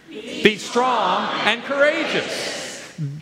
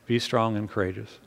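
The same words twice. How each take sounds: First: It is said with force and energy. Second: It is said meekly and politely.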